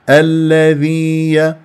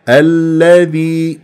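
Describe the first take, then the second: No difference in how they are said.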